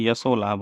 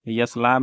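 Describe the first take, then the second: First: Said in the usual way. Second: यश लाभ as "yas labh"; wrong short ending. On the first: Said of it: "होता है". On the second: Shown as a demonstration. Teacher showing the wrong form, यश लाभ without the o. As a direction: end यश without any "o". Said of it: "नहीं होता है".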